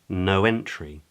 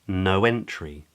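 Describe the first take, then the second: Both takes have the same delivery.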